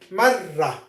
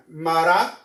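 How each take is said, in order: First: Marra with the rr held long; doubled r. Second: Mara with one short tapped r; single r. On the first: Teacher contrasting for students, long doubled r. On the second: Teacher contrasting for students, short single r. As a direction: tap the r of Mara once, quickly. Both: Shown as a demonstration. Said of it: "One more time".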